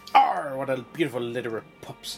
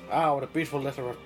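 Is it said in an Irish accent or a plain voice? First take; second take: Irish; plain. First: It is said in a put-on Irish accent. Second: It is said without an Irish accent.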